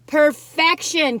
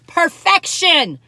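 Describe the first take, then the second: First: Slow, loud, savoring perfection; slow delighted Perfection; drawn-out rapture. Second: Drawn-out rapture. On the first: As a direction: draw out Perfection like a swoon. Repeats it. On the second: Savoring first bite. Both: Real, not acted.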